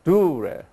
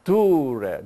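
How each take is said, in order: First: The name is said with Greek pronunciation. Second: The same.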